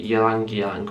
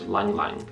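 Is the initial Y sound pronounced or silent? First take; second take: pronounced; silent. First: The initial Y sound is pronounced. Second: The initial Y sound is left silent.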